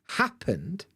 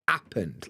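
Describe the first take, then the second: First: The word begins with a clear H sound. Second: The word begins without any H sound. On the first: "She doesn't say happened" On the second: "it's happened. ... dropping the H at the front of words"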